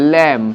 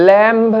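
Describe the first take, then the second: First: "ল্যাম্ব" ending on m, b dropped; silent b. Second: "ল্যাম্ব" with the b sounded; drawn-out "ল্যাম্ব" ending in b; wrong pronunciation. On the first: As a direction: say "ল্যাম্ব" as "lam", falling. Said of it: "হবে". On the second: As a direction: say "ল্যাম্ব" slowly, voicing the final b. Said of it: "ল্যাম্ব নয়, হবে". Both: Shown as a demonstration.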